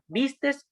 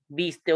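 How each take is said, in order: First: The word ends with an extra s sound. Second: The word ends without an s sound. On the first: The speaker calls it wrong. "al final de algunos verbos" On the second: The speaker calls it right. "que sería lo correcto"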